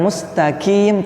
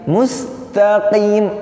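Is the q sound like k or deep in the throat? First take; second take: like k; throat. First: The q sounds like a plain k. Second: The q comes from deep in the throat. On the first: The speaker calls it wrong. "Melafalkan qaf bukan seperti pakai ka ya, bukan mustaqim" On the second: The speaker calls it right. "tapi mustaqim, ada di tenggorokan bunyinya"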